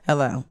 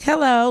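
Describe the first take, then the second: First: It is said in a natural, everyday voice. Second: It is said in an adopted, unnatural voice. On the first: The speaker is being herself. The speaker calls it right. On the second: The speaker is not being herself. The speaker calls it wrong. "if I'm not using my voice, like"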